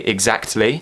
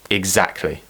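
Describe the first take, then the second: First: The T sound is clearly pronounced. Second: The T sound is dropped. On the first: This is a more traditional way of saying it. "they still do pronounce it with the T" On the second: This is how most people say it today. "this is how I pronounce it"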